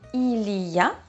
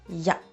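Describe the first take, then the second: First: All three syllables are pronounced fully. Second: It is squeezed into one short syllable. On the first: "instead of saying il y a" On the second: "that we contract to ya"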